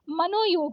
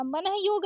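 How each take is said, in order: First: मनोयोग with o, mano-yog; correct joined ओ. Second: मनः योग with an h after mana; wrong visarga. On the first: Teacher correcting it, मनोयोग as one word. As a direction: join मनोयोग through a long o. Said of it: "मनोयोग होता है". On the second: Teacher showing the mistake, मनः योग as two words. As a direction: breathe out the ah in मनः before योग. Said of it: "मनः योग नहीं होता है". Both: Shown as a demonstration.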